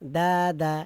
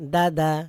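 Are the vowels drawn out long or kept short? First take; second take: long; short. First: The vowels are drawn out long. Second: The vowels are kept short and quick. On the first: The speaker calls it wrong. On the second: The speaker calls it right.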